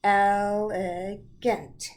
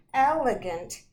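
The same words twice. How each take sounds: First: ELEGANT drawn out slowly in three beats, el-e-gant; syllable by syllable. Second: Said in the usual way. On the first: Shown as a demonstration. Teacher showing pupils the syllables in elegant, slow and separated. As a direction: say "Elegant" loud and very slow, each syllable apart. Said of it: "let's hear the syllable sounds". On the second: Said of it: "means that it's really fine".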